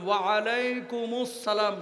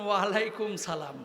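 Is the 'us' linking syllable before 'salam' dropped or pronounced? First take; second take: pronounced; dropped. First: The linking syllable before salam is pronounced. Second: The linking syllable before salam is dropped. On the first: The speaker calls it right. "বলেন ওয়ালাইকুমুস সালাম" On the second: The speaker calls it wrong. "অনেকে বলেছেন ওয়ালাইকুম সালাম, না"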